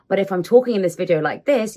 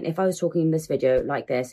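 First: It is said warmly, with a smile. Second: It is said flatly, without a smile.

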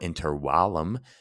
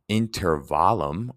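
First: It is pronounced the Latin way. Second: It is pronounced the English way.

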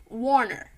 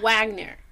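First: The name is said without a g sound. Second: The name is said with a g sound. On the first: The speaker calls it wrong. "She fucking said Warner Moura" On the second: The speaker calls it right. "It's clearly Wagner"

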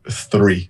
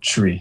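First: The word begins with a th sound. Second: The word begins with a plain t sound. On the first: The speaker calls it right. "instead of like three for the number" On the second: The speaker calls it wrong. "Tree instead of like three"

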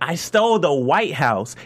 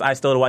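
First: It is said with strong passion. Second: It is said flatly, without feeling.

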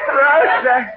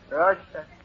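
First: It is said with emotion and feeling. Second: It is said flatly, without feeling.

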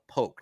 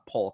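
First: The name is said without an L sound. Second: The name is said with an L sound. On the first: The speaker calls it right. "There is no L. Polk" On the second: The speaker calls it wrong. "not Polk"

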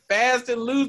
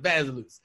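First: Each word is said clearly and separately. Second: The words are rushed and blurred into one word. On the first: "like fast and loose" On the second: "me saying fast and loose. Really, really quickly"

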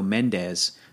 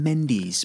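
First: The name is said in a Spanish-style pronunciation. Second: The name is said in a British pronunciation. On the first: "here in Southern California we go Mendes" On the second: "in the UK they pronounce it Sam Mendes"

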